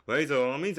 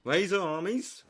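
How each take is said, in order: First: Rallying cry with a cracking voice. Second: Rallying call. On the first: Rallying the army, with a cracking voice. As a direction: let the voice crack on armies. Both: Shown as a demonstration. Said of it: "I need a voice crack there".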